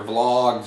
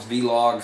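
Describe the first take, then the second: First: "vlogs" as one syllable, v running straight into l; one-syllable pronunciation. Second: "vlogs" said as vee-logs, two syllables; spelled-letter pronunciation. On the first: Vlogger offers viewers one name for video logs, "vlogs" in one syllable. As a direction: say "vlogs" with a blended vl at the start. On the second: Vlogger offers viewers another name for video logs, "vlogs" as vee-logs. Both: Shown as a demonstration. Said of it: "however you wanna pronounce it".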